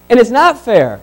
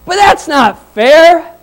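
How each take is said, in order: First: Said in the usual way. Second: Slow, higher, louder whine of protest; whiny complaint. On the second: Retold or imitated. Early laborers protesting to the master, mock slow whine. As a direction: drag it out like an aggrieved worker.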